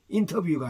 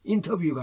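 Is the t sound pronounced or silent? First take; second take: pronounced; pronounced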